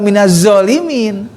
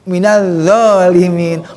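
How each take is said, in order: First: The z is a plain buzzing z sound. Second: The z is made with the tongue between teeth. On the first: The speaker calls it wrong. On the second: The speaker calls it right. "Yang toaliti kan sa za zo"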